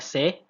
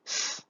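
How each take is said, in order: First: The consonant is followed by a vowel. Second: The consonant is said bare, without a vowel. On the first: The speaker calls it wrong. "kita tidak baca C, karena kalau kita tambahkan E-nya" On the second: The speaker calls it right. "kita ambil bunyi bunyi dasarnya saja"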